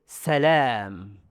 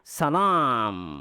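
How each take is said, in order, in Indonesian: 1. Suaranya terbuka dan bergema di mulut. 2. Suaranya bergema melalui hidung. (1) "Suara mulut" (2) "Suara hidung"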